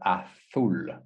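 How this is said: It is said with a northern Spain pronunciation. "if it's from the north of Spain, it's the azul"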